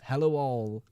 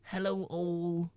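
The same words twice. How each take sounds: First: Said in the usual way. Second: High, slow, drawn-out hello; playful put-on hello; sing-song greeting.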